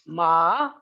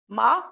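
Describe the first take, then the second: First: The pitch dips low then rises. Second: The pitch rises from mid to high. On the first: "low dipping, is falling and rising" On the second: "high rising pitch"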